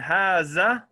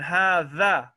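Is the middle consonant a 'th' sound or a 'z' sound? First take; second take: z; th. First: The middle consonant sounds like 'z'. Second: The middle consonant sounds like 'th' in 'this'. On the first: The speaker calls it wrong. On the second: The speaker calls it right.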